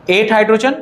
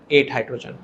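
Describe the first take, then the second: First: एट hydrogen with a rise on hydrogen; checking tune rising; rising count. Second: एट hydrogen lower and softer, falling from एट; falling confirmation. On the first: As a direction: lift hydrogen like a question. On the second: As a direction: confirm एट hydrogen quietly with a drop. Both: Shown as a demonstration. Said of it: "सभी लोग ध्यान से देखो".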